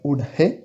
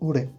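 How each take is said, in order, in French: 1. Le son « h » est bien prononcé. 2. Le son « h » est complètement omis. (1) "on va pas dire Ol He" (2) "on va dire Ore"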